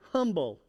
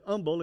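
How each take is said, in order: First: The word begins with a clear h sound. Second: The word begins without an h sound. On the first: "Y'all put the huh on it? Yes, it is humble" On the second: "Unless sometimes I say humble and then it's that way too"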